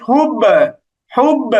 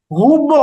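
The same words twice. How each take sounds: First: "হুব" with a light be-like bounce; qalqalah tilted downward. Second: "হুব" wrongly ending in a rounded bo; wrong rounded qalqalah. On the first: Teacher takes the ba toward zer, light bouncing qalqalah. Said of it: "জেরের দিকে নিয়ে যাচ্ছি". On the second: Teacher shows learners what to avoid, rounded bounce. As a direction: let the b of "হুব" open into a long o. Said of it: "এইরকম না". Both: Shown as a demonstration.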